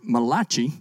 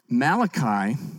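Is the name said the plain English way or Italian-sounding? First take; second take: Italian; English. First: The name is said with an Italian-sounding pronunciation. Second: The name is said the usual English way.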